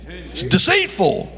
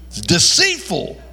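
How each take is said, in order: Both takes have the same delivery.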